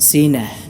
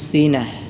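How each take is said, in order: The two takes are said the same way.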